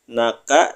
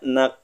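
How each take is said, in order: First: A vowel follows the final k sound. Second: The word stops on the k sound.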